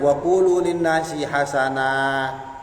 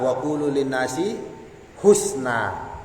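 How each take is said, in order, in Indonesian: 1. Kata kunci diucapkan sebagai ha-sa-nah. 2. Kata kunci diucapkan sebagai hus-na. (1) "guru-guru kita mengajarkan apa? Hasanah" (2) "huruf ha-nya dibaca dhammah. Wa sukunis sin"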